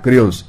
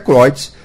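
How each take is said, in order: First: The name is pronounced the Brazilian Portuguese way. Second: The name is pronounced the original German way. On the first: This is how people locally say the name. "como estamos aqui no Brasil, vamos falar Creus" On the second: This follows the name's German origin. "o certo é Croites"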